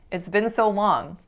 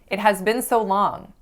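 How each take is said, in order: First: 'It has' is shortened to one syllable 'it's'. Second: Both words 'it has' are said in full. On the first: The speaker calls it right. "Instead of this, you should say it's" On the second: The speaker calls it wrong. "sounds and feels very unnatural"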